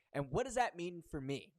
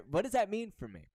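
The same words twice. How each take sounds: First: Said in the usual way. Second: Higher, louder voice of a confused listener; puzzled audience member. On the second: Retold or imitated. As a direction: voice the audience's puzzled question with a laugh. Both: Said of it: "You're probably saying".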